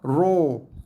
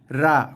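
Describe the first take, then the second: First: The ra is thick and rounded. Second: The ra is thin and light. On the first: "bunyi yang terlalu tebal dan bulat" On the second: "itu bunyi yang salah eh"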